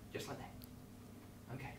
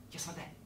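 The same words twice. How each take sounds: First: Slow, breathless whisper; deflated whisper. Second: Said in the usual way. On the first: Real, not acted. Host to kids, whispering in defeat. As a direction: let it die out. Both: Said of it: "release my hands".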